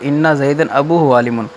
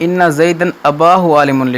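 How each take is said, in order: First: The third word has a long u after b. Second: The third word has a long a after b. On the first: The speaker calls it right. "तो दुरुस्त बनेगा" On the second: The speaker calls it wrong. "लिखा हुआ है"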